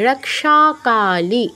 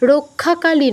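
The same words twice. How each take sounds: First: The cluster is sounded as k plus sh. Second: The cluster is sounded as a doubled kh. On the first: The speaker calls it right. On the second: The speaker calls it wrong.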